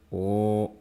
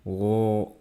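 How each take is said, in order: Both takes have the same delivery.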